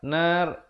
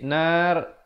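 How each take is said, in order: No difference in how they are said.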